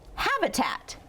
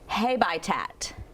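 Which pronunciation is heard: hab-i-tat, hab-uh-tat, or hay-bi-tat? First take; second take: hab-uh-tat; hay-bi-tat. First: Short first vowel, reduced uh in the middle. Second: The first vowel is long, like 'hay'. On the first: The speaker calls it right. "make the unstressed uh sound" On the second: The speaker calls it wrong. "Does that sound like a word you recognize?"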